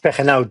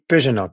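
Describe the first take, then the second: First: The name is pronounced the Spanish way. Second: The name is pronounced the French way. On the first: "It's a Spanish name" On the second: "In French, they say"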